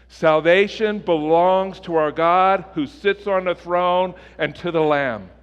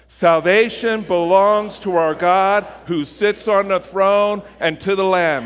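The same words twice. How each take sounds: First: It is spoken at a normal, steady volume. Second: It is shouted loudly with high energy. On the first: "let's say this together like we believe it to be true" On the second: "But let's shout it"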